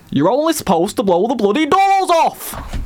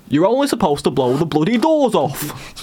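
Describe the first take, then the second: First: High, slow shouted Cockney quote; Michael Caine. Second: Slow put-on Cockney film quote; Michael Caine. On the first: Acted. Host testing co-hosts with a film quote, high shouted Cockney. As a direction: bellow it slowly in a put-on Cockney accent. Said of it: "I'm thinking Michael Caine". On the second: Host retrying the film quote for co-hosts, slow Cockney impression. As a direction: draw it out in an attempted Cockney accent, less shouted. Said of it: "How does he say that in Italian Job?".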